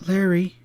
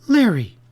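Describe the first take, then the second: First: Higher-pitched, pained appeal; raised, pleading exclamation; crying out. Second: High, loud, sharp exclamation; startled, reproving cry; sharp rebuke. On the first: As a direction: cry his name in reproach. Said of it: "she cried". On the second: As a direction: cut him off sharply with his name. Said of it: "she said sharply". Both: A narrator's reading.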